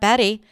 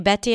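First: The middle t is a quick flap like d. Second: The middle t is a clear, released t. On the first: "and not Betty" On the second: "If you say Betty"

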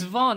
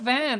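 First: The vowel is a rounded 'o' sound. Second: The vowel is an open 'a' sound. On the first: The speaker calls it right. "It's Von" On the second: The speaker calls it wrong. "It's not Van"

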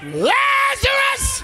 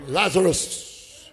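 First: The name is shouted with a loud, powerful voice. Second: The name is said softly in a theatrical manner. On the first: A commanding call that must be obeyed. The speaker calls it right. "The Bible says he spoke with a loud voice" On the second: A stagey, polite summons. The speaker calls it wrong. "He wasn't Shakespearean"

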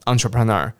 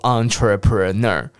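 First: The syllables run together in one quick beat. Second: Each syllable is said separately and slowly. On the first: The speaker calls it right. "你念一拍entrepreneur 就好了" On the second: The speaker calls it wrong. "你每一个音节都念得很清楚entrepreneur，你不要念成四拍"

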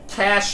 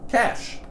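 First: The word is said with two syllables. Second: The word is said with one syllable. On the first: The speaker calls it wrong. "Even though it doesn't have the little thingy" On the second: The speaker calls it right. "pronounced as cash"

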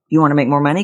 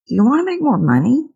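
First: The question is rushed without waiting for an answer. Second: The question is asked while waiting for an answer. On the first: The speaker does not really want an answer. The speaker calls it wrong. "We ask questions and we keep talking" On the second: The speaker really wants to know the answer. The speaker calls it right. "I asked you like I really wanted to know"

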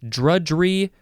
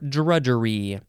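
First: The word is said with two syllables. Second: The word is said with three syllables. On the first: "You can say it with two syllables" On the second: "or three syllables"

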